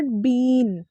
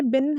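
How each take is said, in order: First: "बीन" slow, long drawn ee; wrong pronunciation. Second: "बिन" with short i; a brief vowel in "बिन"; correct pronunciation. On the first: Teacher shows what to avoid, "बीन" mispronounced with long ee. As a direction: drag the vowel of "बीन" out. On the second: Teacher gives the right form, "बिन" said short. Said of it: "not बीन". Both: Shown as a demonstration.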